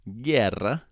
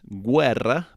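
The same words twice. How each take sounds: First: The u after the g is silent. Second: The u is pronounced after the g. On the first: The speaker calls it right. "now the U is silent" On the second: The speaker calls it wrong. "It's not"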